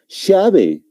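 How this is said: It is said with an Argentine accent. "Un argentino, ¿cómo lo va a pronunciar? Lo va a decir llave"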